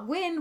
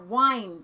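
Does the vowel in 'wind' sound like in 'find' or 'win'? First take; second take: win; find. First: The vowel is short, as in win. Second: The vowel is long, as in find. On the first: This is the modern pronunciation. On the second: This is the older pronunciation from when the song was written.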